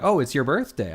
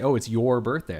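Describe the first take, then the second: First: "your" said as "yer"; "your" rhymes with "fur", casual and quick; reduced "your". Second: "your" said as "yore"; "your" rhymes with "door", carefully rounded; full vowel in "your". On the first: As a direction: relax "your" into a short "yer". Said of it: "I always say your". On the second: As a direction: open "your" out to a full "or" sound. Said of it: "I wouldn't say". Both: Shown as a demonstration.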